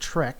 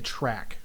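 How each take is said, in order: First: The vowel sounds like the e in bet. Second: The vowel sounds like the a in cat. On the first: The speaker calls it right. "the right way to say it" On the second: The speaker calls it wrong. "it's just a way that I've always said it"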